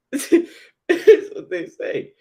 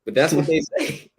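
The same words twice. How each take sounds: First: Much higher, slow laughing through the words. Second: Said in the usual way. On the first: Real, not acted. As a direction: laugh it out in disbelief. Repeats phrase, now laughing.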